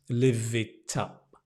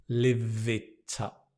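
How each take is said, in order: The two takes are said the same way.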